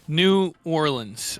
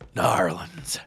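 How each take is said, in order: First: The name is said in full, syllable by syllable. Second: The name is slurred together into two syllables.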